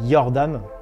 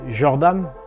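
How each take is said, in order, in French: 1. Il est prononcé à la manière nordique. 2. Il est prononcé à la manière anglaise. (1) "en nordique, ça se dit" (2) "en anglais, ça se dit euh"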